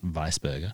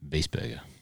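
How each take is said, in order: First: The first syllable has an "eye" vowel sound. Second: The first syllable has an "ee" vowel sound. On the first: The speaker calls it wrong. "not Weisberger" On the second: The speaker calls it right. "the I after the E would make a E sound"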